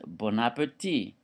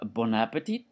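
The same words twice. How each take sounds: First: It is said with a French accent. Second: It is said with an English-like accent.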